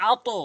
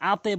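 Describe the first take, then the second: First: আতো bounced upward to a rounded "o"; correct qalqalah. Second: আতে with the bounce thinned to "e"; mistaken qalqalah. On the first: Teacher showing learners the required form, আতো with "o" bounce. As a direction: say আতো with a heavy "o" echo on the t. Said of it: "এখানে আতো". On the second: Teacher warning learners what not to say, আতে with "e". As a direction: say আতে ending in a wrong "e" echo. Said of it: "আতে বলতে পারবেন না". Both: Shown as a demonstration.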